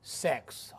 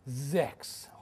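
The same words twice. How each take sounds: First: It sounds like the English word 'sex'. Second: It has the German 'ch' sound before the s. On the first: The speaker calls it wrong. "I did not pronounce correctly" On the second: The speaker calls it right. "It should be sex"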